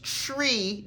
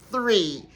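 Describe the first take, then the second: First: The first sound is a plain t. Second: The first sound is a th.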